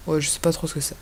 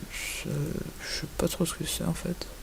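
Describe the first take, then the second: First: Said in the usual way. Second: Much softer, slowed, half to himself; muttered aside. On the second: Real, not acted. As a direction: mumble it unsure, under your breath. (marmonné pour soi, hésitant)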